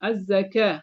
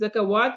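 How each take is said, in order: First: A long 'a' sound replaces the 'w'. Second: A 'w' sound is pronounced in the middle. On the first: The speaker calls it right. "वाव की आवाज़ नहीं पढ़ी बल्कि अलिफ की पढ़ी" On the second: The speaker calls it wrong. "ज़कावात नहीं"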